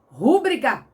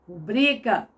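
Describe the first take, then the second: First: The stress falls on the first syllable. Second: The stress falls on the second syllable. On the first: The speaker calls it wrong. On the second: The speaker calls it right.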